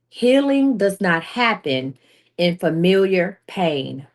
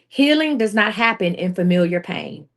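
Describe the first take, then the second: First: The sentence is spoken slowly and deliberately. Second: The sentence is spoken at a normal pace.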